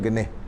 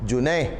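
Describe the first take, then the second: First: The word begins with a hard g sound. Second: The word begins with a soft j sound. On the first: This is how Egyptians read it. "bacanya genih" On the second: This is the standard classical form. "dia bahasa fasahahnya Junaih"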